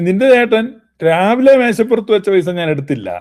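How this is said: The stress falls on the word രാവിലെ. Money left at another time may have been taken. "രാവിലെ എന്നുള്ളതിന് ഊന്നൽ കൊടുത്താൽ"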